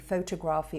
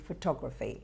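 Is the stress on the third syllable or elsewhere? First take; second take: third syllable; elsewhere. First: The stress is on the third syllable. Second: The stress is not on the third syllable. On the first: The speaker calls it wrong. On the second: The speaker calls it right.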